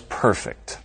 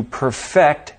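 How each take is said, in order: First: "perfect" stressed on the first syllable, PER-fect; adjective stress. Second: "perfect" stressed on the second syllable, per-FECT; verb stress. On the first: Teacher models an example sentence, "perfect" with first-syllable stress. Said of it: "verbs that morph into adjectives". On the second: Teacher models an example sentence, "perfect" with second-syllable stress. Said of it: "As an example". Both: Shown as a demonstration.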